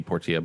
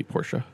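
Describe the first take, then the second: First: Portia with a clear T, "por-tee-a"; Por-tee-a pronunciation. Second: Portia said "por-sha"; Por-sha pronunciation. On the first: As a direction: give Portia three syllables: por-tee-a. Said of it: "spelled that same way be Portia". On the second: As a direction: turn the ti of Portia into sh. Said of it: "things spelled that same way". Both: Real, not acted.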